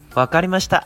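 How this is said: It sounds cheerful and agreeable.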